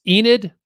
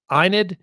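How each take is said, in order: First: Enid said as EE-nid; long-E pronunciation. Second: Enid said as EYE-nid; long-I pronunciation. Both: Shown as a demonstration. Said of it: "I didn't ask him how to say this".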